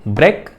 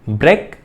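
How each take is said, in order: No difference in how they are said.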